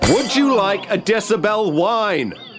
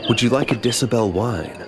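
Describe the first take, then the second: First: It is said loudly. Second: It is said quietly.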